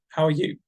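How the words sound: The voice falls at the end. The speaker is not really asking. "dropping intonation"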